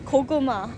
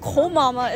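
First: The word is said as 'ko-ku-ma'. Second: The word is said as 'ko-ma-ma'. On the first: The speaker calls it right. "it's Kokuma" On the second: The speaker calls it wrong. "Not Komama"

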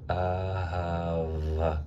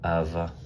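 First: The word is said slowly and carefully. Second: The word is said quickly and run together.

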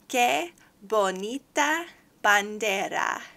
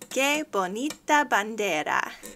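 First: It is said at a slower pace. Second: It is said at a faster pace.

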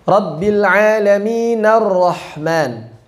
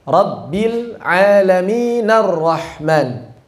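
The two takes are said the same way.

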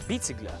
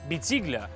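First: The stress falls on the first syllable. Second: The stress falls on a later syllable.

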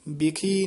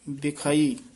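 First: The word is said short, as 'bikhi'. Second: The word is said with a longer 'bikhai' ending. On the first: The speaker calls it wrong. "ਬਿਖੀ ਨਹੀਂ ਕਹਿਣਾ" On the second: The speaker calls it right. "ਇਹ ਬਿਖਾਈ ਉਚਾਰਨ ਕਰਨਾ"

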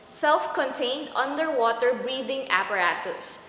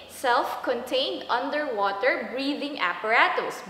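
No difference in how they are said.

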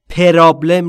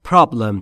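First: An extra vowel is inserted between p and r. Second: The p and r are joined with no vowel. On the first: The speaker calls it wrong. "پرابلم نیست" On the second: The speaker calls it right. "problem بین P و R صدایی وجود نداره"

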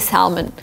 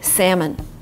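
First: The L in the word is sounded. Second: The L in the word is silent. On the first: It is the British way of saying it. "if you're in Great Britain, you can say salmon. ... With an L" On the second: It is the American way of saying it. "in America, you just omit L and say salmon"

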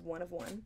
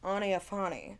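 First: The words are said plainly as three separate words. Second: The words are blended into one fancy-sounding word.

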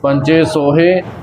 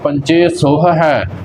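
First: The second word has only one h sound. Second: The second word has two separate h sounds. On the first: The speaker calls it wrong. "ਇੱਕ ਹਾਹੇ ਨੂੰ ਕੱਟ ਦਿੰਦੇ ਨੇ ... ਇੱਦਾਂ ਨਹੀਂ ਉਚਾਰਨ ਕਰਨਾ" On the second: The speaker calls it right. "ਪਹਿਲਾ ਹਾਹਾ ਮੁਕਤਾ ਹੈ ਤੇ ਦੂਜੇ ਹਾਹੇ ਨੂੰ ਸਿਹਾਰੀ ਲੱਗੀ ਹੈ, ਇੱਦਾਂ ਹੀ ਇਹਦਾ ਉਚਾਰਨ ਕਰਨਾ ਹੈ"

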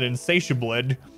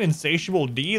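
First: The D is merged into one word ending '-bled'. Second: The final D is said as a separate letter. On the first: The speaker calls it wrong. "That makes a lot more sense than Insatiabled" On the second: The speaker calls it right. "Is your name Insatiable D?"

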